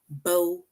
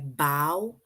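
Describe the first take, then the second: First: The vowel sounds like the one in low. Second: The vowel sounds like the one in how. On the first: A ribbon tied in hair. "this word rhymes with low, bow" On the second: Bending forward to thank an audience. "this word rhymes with how, like bow"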